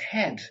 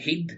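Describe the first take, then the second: First: The word is said with an English vowel. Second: The word is said with a Scottish vowel. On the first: "The English people said head" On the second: "the Scotch people say head"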